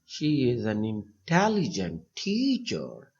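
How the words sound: The word teacher gets the strongest stress. The speaker calls it right. "अब teacher पे सबसे ज़्यादा focus करेंगे"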